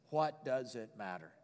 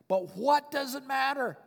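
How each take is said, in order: First: Low, slow, soft question; quiet shrug. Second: High, slow, emphatic question; exultant. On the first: Preacher voicing Paul shrugging off critics, quietly. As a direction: let it go softly, untroubled. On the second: Preacher relishing Paul's words to the congregation, exultant. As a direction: throw the question out high and defiant. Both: Acted.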